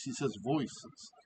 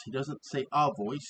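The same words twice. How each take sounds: First: Says and voices slow and softer, voices marked plural; stress on voices. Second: The word a leaned on, marking a voice as singular; stress on a voice. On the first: Host correcting viewers, softly stressing voices. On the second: Host correcting a misheard line, stressing a voice. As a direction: hit a in a voice, at usual level. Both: Shown as a demonstration.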